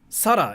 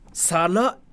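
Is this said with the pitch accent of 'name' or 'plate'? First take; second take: name; plate. First: It has the pitch accent of the girl's name. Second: It has the pitch accent of the word for plate. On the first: It is a name for people. "Sara is a like it's a name for like people" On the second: It means a plate. "Sara is a plate"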